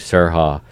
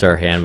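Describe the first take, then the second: First: The name ends without the n sound. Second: The name ends with a clear n sound. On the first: The speaker calls it wrong. "I'm gonna call you Sirha" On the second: The speaker calls it right. "I know it's Sirhan"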